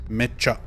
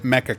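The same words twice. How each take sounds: First: The middle consonant is doubled and held longer. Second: The middle consonant is short, not held. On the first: The speaker calls it right. "there are two C's" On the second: The speaker calls it wrong. "as everybody mispronounces it"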